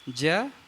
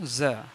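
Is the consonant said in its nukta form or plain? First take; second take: plain; nukta. First: The consonant is said in its plain form. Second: The consonant is said in its dotted nukta form. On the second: "बिंदी लगा दिए तो ज"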